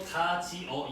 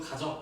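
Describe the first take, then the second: First: The word is said in three separate syllables. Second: The word is contracted into two syllables. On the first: The speaker calls it wrong. "이게 아니라" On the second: The speaker calls it right. "이런 식으로 이야기를 하잖아"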